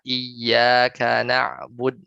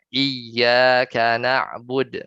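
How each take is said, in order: First: The doubled consonant has no extra stress. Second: The doubled consonant is pushed with extra stress. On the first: "misalnya nggak nabar" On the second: "bacanya dengan nabar"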